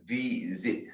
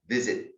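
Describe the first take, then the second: First: VISIT broken into two sounds, vi-zit; split into two syllables. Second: Said in the usual way. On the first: Shown as a demonstration. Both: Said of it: "made of two sounds".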